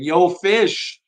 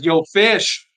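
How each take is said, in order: First: Hammed-up Long Island "Yo, Fish", louder and higher; Long Island accent. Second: A playful Long Island "Yo, Fish", loud and high; Long Island accent. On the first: Host imagining a viewer greeting him in a Long Island accent. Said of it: "I just imagine a Long Island accent saying". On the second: Retold or imitated. Host reading a viewer's greeting in a mock Long Island accent. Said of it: "in a Long Island accent, maybe".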